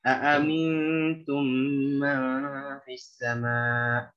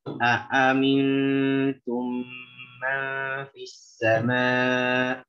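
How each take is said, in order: First: It is recited at a medium speed. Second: It is recited slowly and very deliberately. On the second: "Baca dengan tahqiq"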